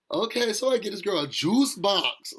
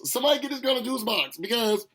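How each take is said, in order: First: Said in the usual way. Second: "Somebody" punched higher on the repeat; mocking emphasis on "Somebody" in the repeat. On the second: Shown as a demonstration. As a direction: hit "Somebody" harder the second time.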